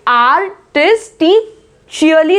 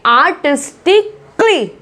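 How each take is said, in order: First: The ending is pronounced like 'shee-lee'. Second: The ending is pronounced like 'klee'. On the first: The speaker calls it wrong. "आर्टिस्टिशियली नहीं बोलेंगे" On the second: The speaker calls it right. "क्ली क्ली करके आवाज आती है"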